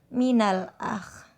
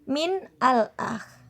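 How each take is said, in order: First: The words are joined with a linking vowel. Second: The two words are said separately.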